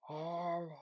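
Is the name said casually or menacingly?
menacingly. The name is said in a menacing, creepy way.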